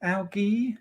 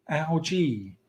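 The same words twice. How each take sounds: First: "algae" with a hard g, as AL-ghee; softer, higher "algae" with g as in go. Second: "algae" with a soft g, as AL-jee; softer "algae" with a j sound. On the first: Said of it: "Fred is right". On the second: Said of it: "still go with algae". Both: Shown as a demonstration.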